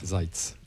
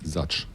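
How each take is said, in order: First: The name ends with a ts sound. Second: The name ends with a k sound. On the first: The speaker calls it right. "je répète, Miha Zajc" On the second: The speaker calls it wrong. "une com dessus en prononçant euh"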